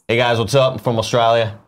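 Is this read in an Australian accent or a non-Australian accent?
Australian. It is read in an Australian accent.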